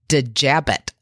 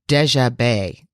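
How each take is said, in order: First: The name ends with a sounded t. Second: The name ends without a t sound. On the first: The speaker calls it wrong. "in America, a lot of us would say" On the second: The speaker calls it right. "Very French"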